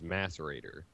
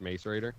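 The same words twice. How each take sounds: First: "macerator" said as MASS-erator; short-a macerator. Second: "macerator" said as MAY-serator; long-a macerator. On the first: Explaining other countries' way, "macerator" with short a as in mass. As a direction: start "macerator" like the word mass. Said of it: "in all of the other countries that speak English". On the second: Explaining the spelling-based way, "macerator" with long a as in may. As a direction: start "macerator" like the word mace. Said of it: "in English it would be pronounced macerator". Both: Shown as a demonstration.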